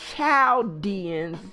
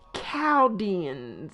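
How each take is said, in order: First: The word begins with a 'ch' sound. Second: The word begins with a 'k' sound. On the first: The speaker calls it wrong. "Most people pronounce it Chaldeans because it's C H A L D E A N" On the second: The speaker calls it right. "but it's pronounced Chaldeans"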